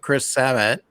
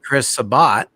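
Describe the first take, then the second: First: The last syllable sounds like 'at'. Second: The last syllable sounds like 'bot'. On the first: "it's Sab at" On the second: "is it really sounding like the O bot?"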